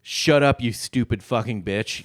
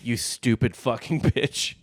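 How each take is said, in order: First: Mock furious yell; angry shout. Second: Slower, breaking into a laugh. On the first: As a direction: bark it like a fed-up husband. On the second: Retold or imitated. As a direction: repeat it while cracking up. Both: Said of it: "It just says".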